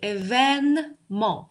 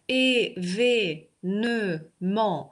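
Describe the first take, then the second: First: The second vowel is an open e sound. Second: The second vowel is a closed e sound. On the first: "нам нужно открыть шире рот" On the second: "тут у нас было закрытое «э венмо»"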